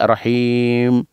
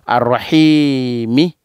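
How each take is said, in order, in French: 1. Le mot se termine par la consonne m. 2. Le mot se termine par une voyelle ajoutée à la fin. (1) "Quand on sera professionnel un jour" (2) "nous allons lire comme un apprenti"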